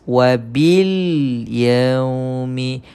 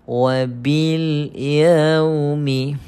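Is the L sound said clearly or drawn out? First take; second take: clearly; clearly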